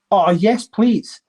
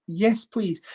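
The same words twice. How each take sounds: First: Louder, delighted cry of yes please; eager yes please. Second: Breathless whispered yes please. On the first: Real, not acted. Thrilled collector to viewers, eager cheer. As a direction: grab the offer with glee. Delighted at finding a Saint Helena coin. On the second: Acted. Collector echoing the offer to himself, a secret whisper. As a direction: hush it like a secret wish.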